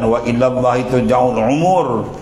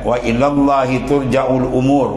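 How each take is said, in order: First: 'Umur' starts with a tight throat ain sound. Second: 'Umur' starts with a light glottal stop. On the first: It speaks of lifespans, a different meaning. The speaker calls it wrong. "bukan dengan ain" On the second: All affairs return to God. The speaker calls it right. "Baca dengan hamzah"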